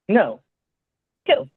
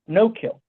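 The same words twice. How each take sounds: First: There is a clear pause between the words. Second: The two words run together without a pause.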